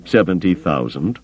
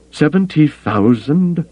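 First: Said in the usual way. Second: Aghast echo, high and drawn out; appalled, incredulous question. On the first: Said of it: "Thalia echoed". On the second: A narrator's reading. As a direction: echo the figure in slow, high-pitched disbelief.

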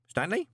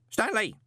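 First: Name called high with a rise; higher, rising call for attention; questioning call. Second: Name called high, falling sharply; high, emphatic summons; insistent call. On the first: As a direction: call out to see if the lad is listening. Postman calls his young colleague. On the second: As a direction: call the lad out of his daydream. Calls again, getting no answer. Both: A narrator's reading.

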